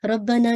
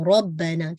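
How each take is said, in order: First: "रब्बना" said light, without the heavy ra; "रब्बना" with a thin, light ra; "रब्बना" with the ra not made heavy; wrong rabbana. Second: "रब्बना" with a full, heavy ra; "रब्बना" with the ra made thick and heavy; "रब्बना" with a heavy ra and a doubled ba. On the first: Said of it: "रब्बना नहीं है". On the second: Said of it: "रॉ को heavy रख". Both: Shown as a demonstration.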